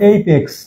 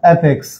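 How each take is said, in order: First: The first vowel is a long 'ay'. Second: The first vowel is a short 'a'. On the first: The speaker calls it right. "কিন্তু এর উচ্চারণ এইপেক্স" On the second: The speaker calls it wrong. "Suppose অ্যাপেক্স"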